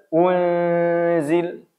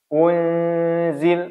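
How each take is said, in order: No difference in how they are said.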